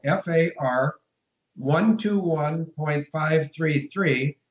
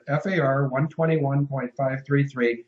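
First: Very slow, careful dictation of the code; deliberately slow, every digit separated; slow and clear. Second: Said in the usual way. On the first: Shown as a demonstration. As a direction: spell it out slowly so they can write it down. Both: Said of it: "I'm gonna speak as slowly and as clearly".

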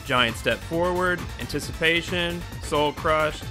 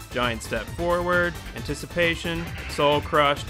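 No difference in how they are said.

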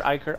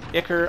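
First: "Ichor" said as EYE-ker, long i; long-i pronunciation. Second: "Ichor" said as ICK-er, short i; short-i pronunciation. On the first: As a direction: open "Ichor" like the word "eye". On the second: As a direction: open "Ichor" with the i of "pick". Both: Shown as a demonstration. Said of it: "which way is the right pronunciation".

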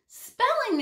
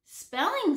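First: Higher, louder shocked cry of Spelling!; exclaimed. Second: Said in the usual way. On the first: A narrator's reading. Jenny reacting to the hobo's answer, exclaimed. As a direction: blurt Spelling! in dismay. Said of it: "exclaimed Jenny". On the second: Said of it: "said the hobo".

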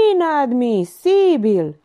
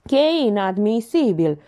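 First: Slow, raised, louder mocking echo; sarcastic parroting of an indignant notary. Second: Slightly raised, affected notary voice; pompous mild protest; indignant notary. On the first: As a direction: draw out INADMISIBIL with sarcasm. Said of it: "Titel observă sarcastic". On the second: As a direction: object like an offended official. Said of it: "comentă notarul". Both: A narrator's reading.

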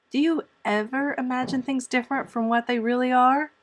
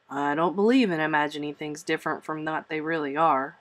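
First: Put-on high-pitched, wondering girl; wide-eyed wonder. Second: Lower-pitched, firm guardian's retort. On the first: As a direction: ask in innocent amazement. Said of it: "asked Anne wide-eyed". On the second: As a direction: dismiss the notion soberly, voice low. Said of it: "retorted Marilla". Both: A narrator's reading.

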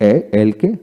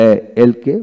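Both takes have the same delivery.

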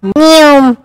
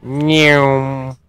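First: A shrill squeaky cat meow; high loud meow. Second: A simple lazy meow; plain cat meow. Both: Shown as a demonstration. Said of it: "Or more appropriately".

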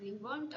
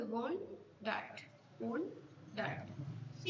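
First: Said in the usual way. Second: "Wondered" split slowly as won, then dered; syllable division. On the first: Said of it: "এটা কোন সিলেবলে ভাগি". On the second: Shown as a demonstration. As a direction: break "Wondered" into two separate beats, won... dered. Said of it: "ওয়ান্ডার্ড কে আমরা যদি সিলেবলে ভাগি".

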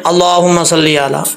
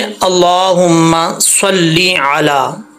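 First: अल्लाहुम्मा सल्ली अला rushed with short vowels; hurried, unstretched अल्लाहुम्मा सल्ली अला; wrong recitation. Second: Slow, long-held vowels in अल्लाहुम्मा सल्ली अला; अल्लाहुम्मा सल्ली अला recited slowly with heavy L; correct recitation. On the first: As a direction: run through अल्लाहुम्मा सल्ली अला without holding the long "laa". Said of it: "ऐसा नहीं पढ़ना". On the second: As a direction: draw out and fully double the L in अल्लाहुम्मा सल्ली अला. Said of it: "इसके तलफ़ुज़ ठीक करेंगे". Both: Shown as a demonstration.

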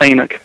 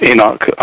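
First: Enoch said the down-south way, "AY-nuck"; Southern pronunciation. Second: Said in the usual way. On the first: Shown as a demonstration. Guest shows host how they say Enoch down south, Southern pronunciation. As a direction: say Enoch as "AY-nuck", second vowel weakened. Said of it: "as we say down south". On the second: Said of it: "That, that's it".

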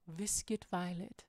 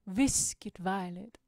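First: Slow, quiet "Viscid Violet"; savoring the words. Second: "Viscid Violet" slow, punching VIOLET; savoring, bigger. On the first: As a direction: relish each syllable of "Viscid Violet", softly and slowly. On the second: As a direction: draw out "Viscid Violet" with fuller voice, leaning on Violet. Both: Shown as a demonstration. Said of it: "a lot of fun to say".

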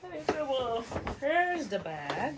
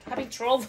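First: Laughing. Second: Struggling. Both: Real, not acted. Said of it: "What am I gonna do?".

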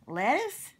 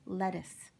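First: High, rising, incredulous echo; baffled question. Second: Said in the usual way. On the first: Acted. Cowboy puzzled by Octopus's joke answer, incredulous. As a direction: echo it upward in loud disbelief.

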